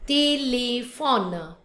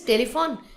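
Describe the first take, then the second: First: It is said with French vowels. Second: It is said with English vowels. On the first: "but in French, téléphone" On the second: "In English is telephone"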